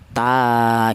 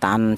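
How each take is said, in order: First: The syllable ends with a lengthened a vowel. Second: The syllable ends with a clear n sound. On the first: The speaker calls it right. "Jadi ta gitu" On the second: The speaker calls it wrong. "Jangan tan, jangan"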